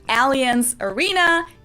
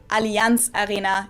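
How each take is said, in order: First: It is said with an American English pronunciation. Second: It is said with a German pronunciation.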